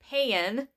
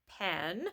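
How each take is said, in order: First: The vowel is drawn out into two syllables. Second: The vowel is short, in one syllable. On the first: "no, no, pan" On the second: "and then pen"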